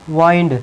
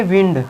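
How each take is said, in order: First: वाइंड with a long i, rhyming with "find"; verb pronunciation. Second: विंड with a short i, as in "win"; noun pronunciation. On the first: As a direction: say वाइंड with an "eye" glide. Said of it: "तो इसकी pronunciation क्या होगी". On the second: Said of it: "तो इसको क्या बोलेंगे". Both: Shown as a demonstration.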